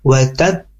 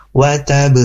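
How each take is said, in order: First: "wa tab" shut on the b for a beat, then bounced; with tasydid. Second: "wa tab" run straight into the bouncing b, no held pause; without tasydid. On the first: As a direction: hold the closed b of "wa tab", then release it. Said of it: "Tapi karena ada tasdid, bacanya". ("wa tab" ditahan satu ketukan, baru memantul) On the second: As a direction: say "wa tab" with a light, immediate echo on the b. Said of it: "Kalau nggak ada tasdid, baca gini". ("wa tab" tanpa jeda, langsung memantul) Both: Shown as a demonstration.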